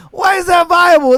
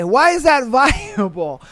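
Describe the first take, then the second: First: Loud, high, disbelieving why; shouted repeat of the question; incredulous shout. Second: Laughing disbelief. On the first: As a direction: yell it at them in disbelief. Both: Real, not acted.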